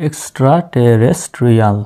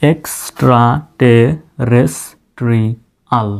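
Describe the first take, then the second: First: Said in the usual way. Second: এক্সট্রা টে রেস ট্রি আল slowly, with a gap after each syllable; এক্সট্রা টে রেস ট্রি আল in slow, detached pieces. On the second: Shown as a demonstration. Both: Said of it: "syllable অনুযায়ী ভেঙে ভেঙে উচ্চারণ করি".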